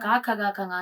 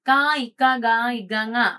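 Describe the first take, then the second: First: The second letters are said without an added vowel. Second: The second letters begin with an added 'i' sound. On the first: The speaker calls it right. "എന്ന് പറയുന്ന കുട്ടികളെ ഞാൻ എനിക്ക് വളരെ റേറാണ് ഞാൻ കേട്ടിട്ടുള്ളത്" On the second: The speaker calls it wrong. "അപ്പൊ ഇവർ അങ്ങനെയല്ല പറയുന്നേ"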